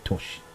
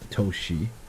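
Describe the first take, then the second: First: The name is said with Japanese pronunciation. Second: The name is said with English-style pronunciation.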